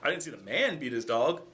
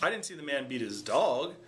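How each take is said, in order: First: The word man carries the main stress. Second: The word dog carries the main stress. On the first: Someone other than a man beat the dog. "Oh, maybe it was a woman" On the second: He beat something other than a dog. "he beat his cat, he beat his wife, right? It wasn't his dog"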